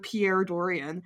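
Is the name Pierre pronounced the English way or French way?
English. Pierre is pronounced with an English accent. "instead of Pierre Dorian"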